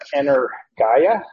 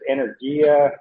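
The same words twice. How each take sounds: First: The vowel before the final a sounds like eye. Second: The vowel before the final a sounds like ee. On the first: "we pronounce that as a long I, as a height" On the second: "Some might pronounce it energia"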